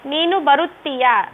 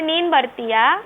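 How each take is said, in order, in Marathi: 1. हा वाक्यांश त्याच्या पूर्ण स्वरूपात म्हटला जातो. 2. हा वाक्यांश संक्षिप्त स्वरूपात म्हटला जातो. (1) "अशा प्रकारे आहे" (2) "बोलीमध्ये बोलते"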